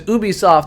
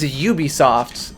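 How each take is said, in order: First: The name begins with an 'oo' sound. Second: The name begins with a 'yoo' sound. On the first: The speaker calls it wrong. "if it was Ubisoft, then it wouldn't be a" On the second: The speaker calls it right. "so I guess it's Ubisoft"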